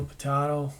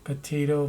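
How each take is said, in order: First: "potato" with the open middle vowel of "father"; stressed TAH in the middle of "potato"; broad-a pronunciation. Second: "Potato" with the middle vowel of "day"; stressed TAY in the middle of "Potato"; long-a pronunciation. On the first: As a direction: say "potato" as puh-TAH-toh. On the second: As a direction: say "Potato" as puh-TAY-toh. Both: Shown as a demonstration. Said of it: "say it either way".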